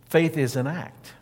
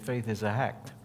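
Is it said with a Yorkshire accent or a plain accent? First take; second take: plain; Yorkshire. First: It is in the speaker's own plain accent. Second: It has Wigglesworth's Yorkshire accent, adding an H.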